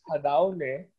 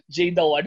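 First: The name begins with an H sound. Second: The name begins with a J sound. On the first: This is how the speaker believes the name is pronounced. "that's how I think it's pronounced" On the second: This is how the other person thought the name is pronounced. "akala ko Jada One"

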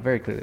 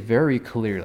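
First: The words are run quickly together and blurred. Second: Each word is carefully and distinctly enunciated. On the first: This is the speaker's natural way of talking. "I would say that, you know, very clearly like that" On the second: This is the careful audiobook way of speaking. "I would never say very clearly"

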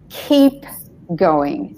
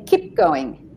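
First: The vowel in 'keep' is long. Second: The vowel in 'keep' is short. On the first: The speaker calls it right. "instead of ... So the E has to be longer" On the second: The speaker calls it wrong. "somebody might say"

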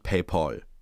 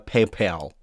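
First: It is pronounced the Germanized way. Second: It is pronounced the original English way. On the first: This is the usual Germanized pronunciation. The speaker calls it wrong. "typischen eingedeutschten Wörter" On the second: This is the proper original pronunciation. The speaker calls it right. "eigentlich heißt es ja PayPal"

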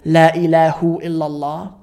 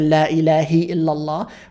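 First: The word after La ends in a 'u' vowel. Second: The word after La ends in an 'i' vowel. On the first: "Do you ever wonder why we don't say" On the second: "Or why don't we say"

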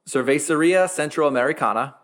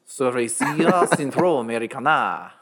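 First: It is said in the speaker's plain accent. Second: It is said in a put-on French accent.

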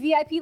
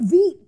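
First: It is spelled out as three separate letters. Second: It is pronounced as a single one-syllable word. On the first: "instead of saying VIP, like very important person" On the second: "they just said it like a word"

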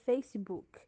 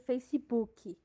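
First: The word ends cleanly on the k consonant. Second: The word ends with an added ee vowel. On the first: The speaker calls it right. "na verdade se pronuncia Facebook" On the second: The speaker calls it wrong. "acrescentar uma sílaba com som de i no final das palavras"

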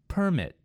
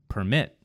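First: The stress is on the first syllable. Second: The stress is on the second syllable. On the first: It is a noun. "In the first word, it was on the first syllable" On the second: It is a verb. "in the second word, I moved the emphasis to the second syllable"

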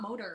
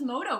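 First: The word ends with an R sound. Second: The word ends in a vowel with no R. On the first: The speaker calls it wrong. "It's not motor" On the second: The speaker calls it right. "Without an R"

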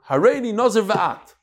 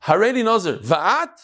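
First: It ends with a fall, as a statement. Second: It ends with a rise, as a question.

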